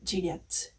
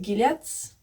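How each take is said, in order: First: It is said with a French pronunciation. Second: It is said with an English pronunciation.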